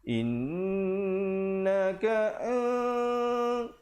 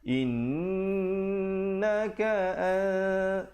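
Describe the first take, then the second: First: The nasal on an is as strong as on inn. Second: The nasal on an is lighter than on inn. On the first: The speaker calls it wrong. "kita dengung sama, tak mau" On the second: The speaker calls it right. "ikhfa kita rendahkan sedikit dengungnya itu"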